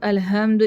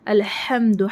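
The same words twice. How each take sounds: First: The h is a light, plain breath sound. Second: The h is a deep, breathy throat sound. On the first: It means the tearing of cloth. The speaker calls it wrong. "छोटी हा पढ़ेंगे" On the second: All praise belongs to God. The speaker calls it right. "हा से पढ़ना पढ़ना है यहाँ"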